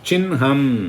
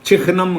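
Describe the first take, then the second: First: The nasal comes first, then the h. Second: The h comes first, then the nasal. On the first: The speaker calls it right. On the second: The speaker calls it wrong. "சிஹ்னம் கிடையாது"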